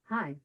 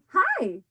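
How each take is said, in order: First: The greeting sounds cold and unfriendly. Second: The greeting sounds warm and excited. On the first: The two people are in a fight. "ooh, those two are in a fight" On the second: The speaker is happy to see the other person. "boy, am I excited to see Anu"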